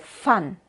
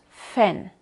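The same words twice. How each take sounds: First: The vowel is a plain Spanish 'a'. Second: The vowel is close to the English 'a'. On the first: This is how people say it in Mexico. "Dicen de verdad A" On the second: This is how it is said in Germany. "decimos fan"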